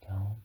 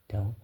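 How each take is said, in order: Both takes have the same delivery.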